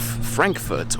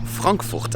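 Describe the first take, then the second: First: It is said with an English pronunciation. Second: It is said with a German pronunciation.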